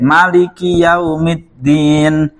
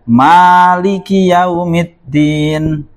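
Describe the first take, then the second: First: The first vowel of Maliki is short. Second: The first vowel of Maliki is long. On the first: "Ini ada yang baca pendek" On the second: "Ada yang baca panjang"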